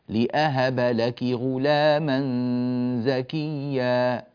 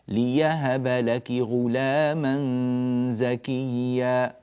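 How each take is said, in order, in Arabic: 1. في الكلمة الأولى همزة بعد la. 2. في الكلمة الأولى صوت ياء بعد la. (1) "الهمز" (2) "الإبدال ياء"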